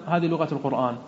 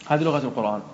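No difference in how they are said.

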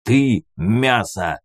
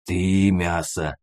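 First: Slow, forceful growl of challenge; snarling retort. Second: Slow, hesitant creature growl; uncertain mutant rumble. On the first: Hero facing down a mutant, snarling it back. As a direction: snarl it back, drawn out and firm. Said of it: "рыкнул я на него". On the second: Mutant answering the man who challenges it, uncertain rumble. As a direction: rumble it slowly, unsure of yourself. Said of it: "наконец неуверенно заурчал мутант". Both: A narrator's reading.

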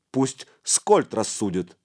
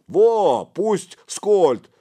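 First: Said in the usual way. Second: High, loud, eager agreement; excited second voice; backing a friend. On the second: A narrator's reading. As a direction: chime in loudly in support. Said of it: "поддержал Чифаню Сычок".

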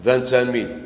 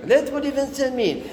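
First: Said in the usual way. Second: High-pitched objection to "فانسان ميل"; mock protest. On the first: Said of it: "شحال جات؟". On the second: Teacher objects to the seller's French price, high protesting voice. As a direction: push the voice way up in reproof.

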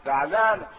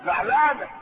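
First: Lower. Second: Mock upset. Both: Shown as a demonstration.

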